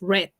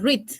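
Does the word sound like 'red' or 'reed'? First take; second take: red; reed. First: It sounds like 'red', with a short vowel. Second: It sounds like 'reed', with a long vowel. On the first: It is the past tense of to read. "en pasado es red, como el color rojo" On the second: It is the present tense of to read. "En presente se dice read"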